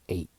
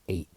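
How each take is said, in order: First: The final T sound nearly disappears. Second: The same.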